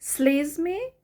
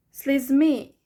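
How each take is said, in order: First: "Слізьми" with СЛІЗ punched, rising at the end; stress on first syllable. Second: "слізьми" with МИ punched loud, falling; stress on last syllable. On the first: Teacher contrasts the two options, first syllable stressed. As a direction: hit the first vowel of "Слізьми". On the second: Teacher contrasts the two options, last syllable stressed. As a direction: hit the final vowel of "слізьми". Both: Shown as a demonstration. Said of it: "the first E or the second E".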